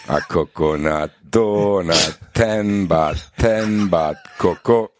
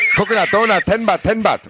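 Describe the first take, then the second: First: The line is said slowly. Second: The line is said fast.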